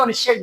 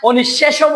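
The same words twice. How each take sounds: First: "অনিঃশেষ" closed on the sh, no o after it; final vowel dropped. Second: "অনিঃশেষও" with an added o at the end; final o sounded. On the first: Teacher showing students the right form, "অনিঃশেষ" ending without a vowel. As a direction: stop "অনিঃশেষ" on its last consonant. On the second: Teacher testing students with the wrong form, "অনিঃশেষও" ending in o. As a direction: open the end of "অনিঃশেষও" into a clear o. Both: Shown as a demonstration. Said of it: "অনিঃশেষও বলছি নাকি অনিঃশেষ বলছি".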